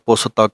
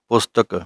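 First: The 't' is full, splitting the word in two. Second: The 't' is only half sounded, joined to 's'. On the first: The speaker calls it wrong. "ਇਹਨੂੰ ਪੂਰਾ ਤੱਤਾ ਨਹੀਂ ਬੋਲਣਾ, ਪੁਸ ਤੱਕ ਨਹੀਂ ਕਹਿਣਾ" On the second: The speaker calls it right. "ਅੱਧੇ ਤੱਤੇ ਦੀ ਆਵਾਜ਼ ਆਉਣੀ ਚਾਹੀਦੀ ਹੈ"

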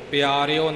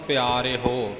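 First: It ends with an i vowel then o. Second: It ends with an e vowel then ho. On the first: The speaker calls it wrong. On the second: The speaker calls it right.

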